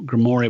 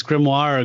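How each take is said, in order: First: "grimoire" said grim-MOR-ee; doubtful alternative pronunciation. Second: "grimoire" said grim-WAHR; French-style pronunciation. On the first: Repeating a version he doubts, "grimoire" as grih-mor-ee. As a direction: make "grimoire" rhyme with "story". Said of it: "I don't think that's right". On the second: Guessing at an unfamiliar word, "grimoire" as grim-wahr. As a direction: say "grimoire" in two beats, ending in wahr. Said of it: "I would think it's grimoire". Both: Shown as a demonstration.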